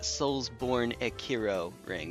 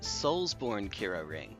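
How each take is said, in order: First: An extra syllable is heard between the first words. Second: The words join with no extra syllable between them. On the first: "There's an extra syllable" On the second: "I've been pronouncing it"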